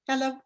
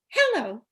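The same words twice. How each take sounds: First: The pitch stays straight and level. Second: The pitch curves up and down. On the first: "let's change it to direct. Make it light" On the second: "Indirect is curvy. The voice goes up and down"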